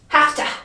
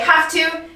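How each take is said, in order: First: The two words are run together and reduced. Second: The two words are said fully and carefully. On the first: "sometimes we get lazy ... It just comes out like have to" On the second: "We don't say have to"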